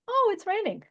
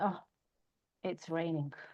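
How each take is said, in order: First: It sounds cheerful and upbeat. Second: It sounds gloomy and down.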